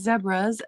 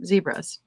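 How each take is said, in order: First: Zebras is said the non-American way. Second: Zebras is said the American way. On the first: The speaker calls it right. "they're supposed to be" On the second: The speaker calls it wrong. "the Americans are the only ones that call them"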